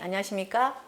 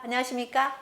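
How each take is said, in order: First: It is said at a middle pitch level. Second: It is said at a fairly high pitch level. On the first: "미" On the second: "파"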